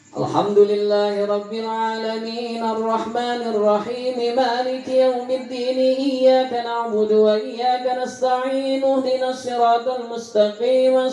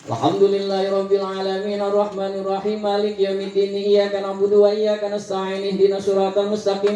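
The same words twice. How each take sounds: First: Each letter is clearly articulated and smoothly joined. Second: Words are run together in one breath, letters blurred. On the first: The speaker calls it right. "hurufnya yang diwasal" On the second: The speaker calls it wrong. "Itu napasnya yang diwasol"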